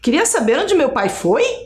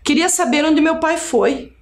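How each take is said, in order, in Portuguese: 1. A voz sobe no final. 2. A voz cai no final. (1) "Se eu colocasse assim, ... mudava totalmente o sentido" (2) "Eu estou perguntando sem fazer tom de voz de pergunta"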